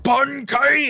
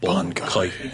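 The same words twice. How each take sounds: First: The word is shouted with high energy. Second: The word is said quietly and calmly. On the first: Most characters call out their power dramatically. "they're always like" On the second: One character calls out his power casually. "he's just like, ... And just drops his sword"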